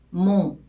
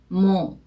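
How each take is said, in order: First: It ends with a vowel sounded through the nose. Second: The same.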